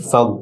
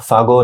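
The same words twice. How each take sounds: First: ফাগ closed on the "gh" without bounce; no qalqalah. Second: ফাগো with a vowel bounced after the "gh"; wrong echoed ending. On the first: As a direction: end ফাগ on the consonant alone. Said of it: "কলকলা হবে না". (ফাগ, কলকলা ছাড়া) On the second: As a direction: let ফাগো end in an extra "o". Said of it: "ফাগো না হয়ে ফাগ". (ফাগো, শেষে বাড়তি ও-ধ্বনি) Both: Shown as a demonstration.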